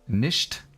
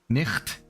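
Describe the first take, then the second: First: The ch is a soft hissing sound. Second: The ch is a rough throat sound.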